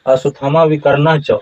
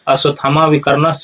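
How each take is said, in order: First: The phrase ends with a plain 'cha' sound. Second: The phrase ends with a 'shcha' sound. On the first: The speaker calls it right. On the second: The speaker calls it wrong.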